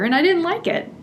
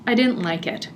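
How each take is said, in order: First: Didn't pitched far higher, rising at the end; confessing her discomfort, rising emphatic; emphatic rise. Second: Said in the usual way. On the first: Real, not acted. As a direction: push didn't up high, incredulous. Repeats the line twice.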